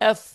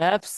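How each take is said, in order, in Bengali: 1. অক্ষরের নামটি পরিষ্কারভাবে f ধ্বনি দিয়ে শেষ হয়। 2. অক্ষরের নামটিতে একটি বাড়তি s ধ্বনি যোগ হয়।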